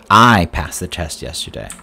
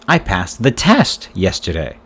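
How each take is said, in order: First: The word 'I' carries the main stress. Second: The word 'test' carries the main stress. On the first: It says who passed the test. "Who passed the test yesterday?" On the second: It says what was passed. "What did you pass yesterday?"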